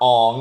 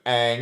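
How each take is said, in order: First: The name is pronounced the live-action movie way. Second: The name is pronounced the usual series way.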